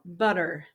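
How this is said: It is said with an American accent. "and American style"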